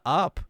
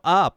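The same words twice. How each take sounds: First: It is said flatly, without energy. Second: It is said loudly, with lots of energy.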